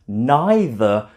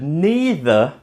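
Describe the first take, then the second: First: It uses the common British pronunciation. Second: It uses the common American pronunciation. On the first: "more common in British English" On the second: "that is more common in America"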